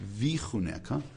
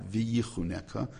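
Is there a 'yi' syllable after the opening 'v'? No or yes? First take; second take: no; yes. First: No 'yi' syllable follows the opening 'v'. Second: An extra 'yi' syllable follows the opening 'v'. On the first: The speaker calls it right. "pronounce it correctly" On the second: The speaker calls it wrong. "not V'yichunecha"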